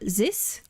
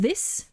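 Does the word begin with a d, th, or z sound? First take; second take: z; th. First: It begins with a buzzing z sound. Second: It begins with a soft th sound. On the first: "like a soft S or a Z" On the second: "instead of this"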